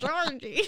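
It is said in a put-on Pennywise voice.

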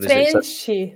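The t sounds like ch, ending in ee. "that would be in Brazilian Portuguese"

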